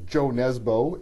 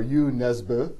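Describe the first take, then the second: First: The name has a North American pronunciation. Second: The name has a Norwegian-style pronunciation. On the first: "if you want to use the North American pronunciation" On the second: "if you want to use the Norwegian pronunciation"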